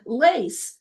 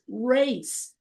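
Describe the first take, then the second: First: The word begins with an L sound. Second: The word begins with an R sound. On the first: The speaker calls it wrong. "They'll they'll say lock, lock, and and lace" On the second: The speaker calls it right. "no, it's race"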